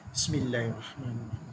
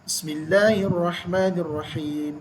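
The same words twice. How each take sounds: First: It is said quietly. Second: It is said loudly.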